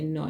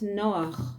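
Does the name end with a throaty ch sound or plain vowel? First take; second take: plain vowel; ch sound. First: The name ends on a plain vowel, no ch. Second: The name ends with a throaty ch sound. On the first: "You say Noah, you don't say ch in America" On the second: "So say Noach"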